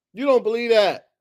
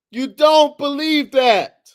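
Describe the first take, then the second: First: Said in the usual way. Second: Higher, louder, slow You don't believe that; loud, high, slow insistence; insistent. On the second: Real, not acted. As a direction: lean hard into the accusation. Repeated accusation.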